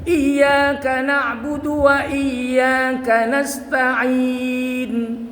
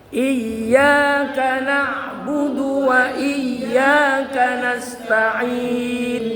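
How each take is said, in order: Both takes have the same delivery.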